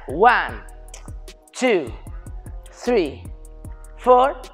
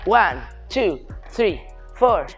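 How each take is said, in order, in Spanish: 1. Los números se cuentan despacio, dos tiempos cada uno. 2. Los números se cuentan rápido, un tiempo cada uno. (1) "antes hemos hecho un 8 a mitad de tiempo" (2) "es más rápido"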